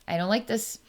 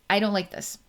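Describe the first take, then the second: First: It sounds clean and matter-of-fact. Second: The same.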